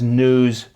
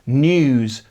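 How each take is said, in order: First: It has no y sound after the n. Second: It has a y sound after the n. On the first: "whereas North American has news" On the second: "British accents tend to have news"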